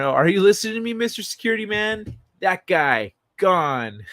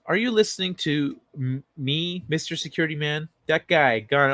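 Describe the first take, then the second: First: Louder, high-pitched mock demand; hammed-up challenge to a security guard; heightened comic quote. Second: Lightly performed comic quote; first, milder take of a quoted bit; quoted line. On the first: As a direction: call out the catchphrase, pitched way up. Same comic quote, repeated more emphatically. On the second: Acted. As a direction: recite the catchphrase with restraint, close to your own voice. Comic quote, first of two takes.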